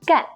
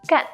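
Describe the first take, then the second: First: The tone falls sharply from high to low. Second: The same.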